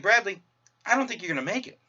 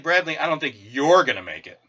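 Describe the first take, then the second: First: It sounds neutral, with no special stress. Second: It sounds mocking, with heavy stress on one word.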